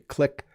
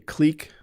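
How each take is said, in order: First: The vowel is a short i sound. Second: The vowel is a long ee sound. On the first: This is another pronunciation some people use. "Some people say click" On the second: This is the speaker's own usual pronunciation. "I say clique"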